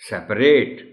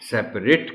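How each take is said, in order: First: The final syllable is full, like 'rate'. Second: The final syllable is reduced and weak. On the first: It is used as a verb. "जब वही word as verb इस्तेमाल होगा" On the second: It is used as an adjective. "जैसे कंपैशनेट में हम नेट कहते हैं, इसी तरह सेपरेट में भी"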